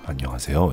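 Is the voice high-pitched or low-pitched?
low-pitched. It is spoken in a low, booming voice. "이렇게 저음으로 얘기하잖아요"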